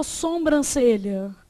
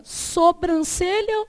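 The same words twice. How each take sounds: First: "sobrancelha" said as "sombrancelha", first syllable nasal; second variant. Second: "sobrancelha" with a purely oral SO, no M; first variant. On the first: Teacher asking which we say, "sobrancelha" with nasal SOM. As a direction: add an M sound after SO in "sobrancelha". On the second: Teacher asking which we say, "sobrancelha" with oral SO. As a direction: keep the first syllable of "sobrancelha" unnasalised. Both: Shown as a demonstration. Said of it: "a gente fala sobrancelha ou".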